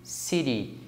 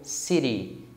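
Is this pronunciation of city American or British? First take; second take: American; American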